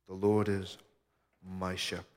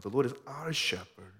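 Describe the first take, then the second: First: Said in the usual way. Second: "our" lifted higher than the rest; emphatic, higher "our"; stress on OUR. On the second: Real, not acted. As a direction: lean on the word "our" with raised pitch. Psalm repeated with "our" for "my.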